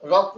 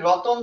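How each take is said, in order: First: The t and n are joined with no vowel. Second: An extra o vowel separates the t and n. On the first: "রত্ন বললে কোথাও এরকম ও নাই" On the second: "মাঝখানে এই যে একটা অতিরিক্ত ও এই জায়গায় আসতেছে"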